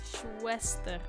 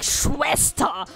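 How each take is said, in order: First: It is said plainly, without drama. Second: It is said in an over-dramatic way.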